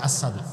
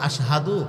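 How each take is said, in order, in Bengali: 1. প্রথম সিলেবলে সাধারণ 's' উচ্চারণ আছে। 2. প্রথম সিলেবলে স্পষ্ট 'sh' উচ্চারণ আছে। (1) "ও খালি আসাদু কয়" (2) "আশহাদু বিলাল উচ্চারণ করতে পারে না"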